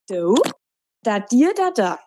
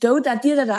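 First: It is said slowly. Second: It is said at normal speed.

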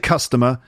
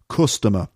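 First: It is said in the speaker's usual accent. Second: It is said with a Liverpool vowel sound. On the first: "I would say customer" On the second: "But Paul sings customer, the sound. Instead of my sound"

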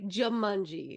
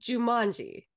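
First: The stress falls on the first syllable. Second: The stress falls on the second syllable. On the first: This is how the other person says the name. "you're like Jumanji" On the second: This is how the speaker has always said the name. "Because I've always said Jumanji"

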